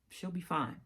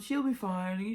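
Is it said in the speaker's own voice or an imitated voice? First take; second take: own voice; imitated voice. First: It is said in the speaker's own voice. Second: It is said imitating the mother's voice.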